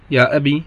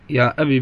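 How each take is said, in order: First: يا أبي ending on a long ī, ya abī. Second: يا أبي with the yā dropped, short kasra, ya abi; short i ending. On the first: Teacher contrasts it with the short-i form, careful demo. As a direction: stretch the final vowel of يا أبي into ee. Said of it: "بالياء". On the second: Teacher shows the kasra-only form to students, precise demo. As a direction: clip يا أبي to a short final i. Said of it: "بالكسر". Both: Shown as a demonstration.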